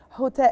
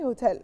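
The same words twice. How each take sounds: First: The opening H is pushed out strongly. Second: The opening H is light and soft. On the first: The speaker calls it wrong. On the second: The speaker calls it right.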